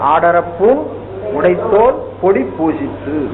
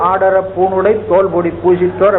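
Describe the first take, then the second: First: The words are split apart with small breaks. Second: The words are run together without breaks. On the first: The phrase is read for its meaning. "பிரிச்சு படிச்சுக்கணும்" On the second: The phrase is read for its sound and rhythm. "பாட்டு படிக்கப்படுது ... அது ஓசைக்காக"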